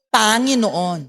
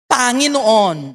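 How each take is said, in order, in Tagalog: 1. Nasa unang pantig ang diin. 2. Nasa susunod na pantig ang diin. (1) "hindi po Panginoon" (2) "The emphasis is not in the first syllable"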